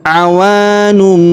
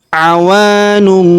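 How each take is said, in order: Both takes have the same delivery.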